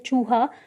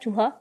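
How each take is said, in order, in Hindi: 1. पहला स्वर लंबा है। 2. पहला स्वर छोटा है। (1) "बड़ी ऊ की मात्रा वाले शब्द का उच्चारण लंबा किया जाता है" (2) "अगर छोटी ऊ का प्रयोग कर दिया गया ... जो कि गलत है"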